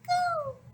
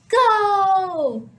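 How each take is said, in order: First: It is said very quietly. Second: It is said very loudly.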